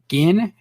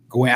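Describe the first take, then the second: First: The name is said without a w sound. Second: The name is said with a w sound. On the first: The speaker calls it wrong. "I said it wrong" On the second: The speaker calls it right. "Nope, it's Gwen"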